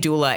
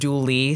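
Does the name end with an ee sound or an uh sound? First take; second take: uh; ee. First: The name ends with an uh sound. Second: The name ends with an ee sound. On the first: The speaker calls it wrong. "I'm saying Dula" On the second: The speaker calls it right. "it's pronounced Dooley, sorry, because the Appalachian way that you pronounce the A at the end is E"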